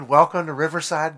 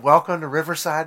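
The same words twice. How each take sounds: First: The greeting sounds warm and friendly. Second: The greeting sounds warm and friendly.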